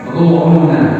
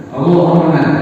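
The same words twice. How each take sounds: First: The vowels are rounded, sounding like ro-u-na. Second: The vowels are rounded, sounding like ro-u-na.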